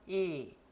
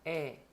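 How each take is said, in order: First: The vowel is said with lips spread, less open. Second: The vowel is said with the mouth half open. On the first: This is the German vowel. "독일어에선" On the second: This is the Korean vowel. "우리말에선"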